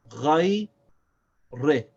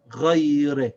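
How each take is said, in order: First: Ghay, long pause, re; one syllable at a time. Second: Ghay re without a gap, louder; whole word joined. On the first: Teacher reads the word, Ghay, re one syllable at a time. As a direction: separate "Ghay" from "re" with a clear gap. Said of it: "one syllable at a time". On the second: Teacher reads the whole word, ghay re joined up. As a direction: run long ghay straight into re. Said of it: "now we read the whole word". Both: Shown as a demonstration.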